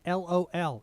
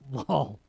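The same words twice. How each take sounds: First: It is spelled out as three separate letters. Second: It is pronounced as one single word. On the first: The speaker calls it right. "it's not a word. It's an it's an abbreviation. It's LOL" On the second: The speaker calls it wrong. "It's not lol"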